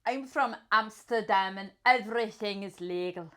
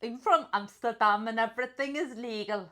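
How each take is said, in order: First: Attempted Dutch accent, drifting toward Scottish. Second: Second attempt at Dutch; Dutch accent. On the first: Player in accent roulette, wobbly Dutch accent. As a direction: try a Dutch accent that slips. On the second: Player retrying the line, put-on Dutch accent.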